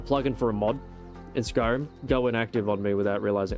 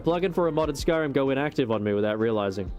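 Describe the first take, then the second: First: There is a break after the word Skyrim. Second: It runs on without a break after Skyrim. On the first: The speaker calls it wrong. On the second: The speaker calls it right.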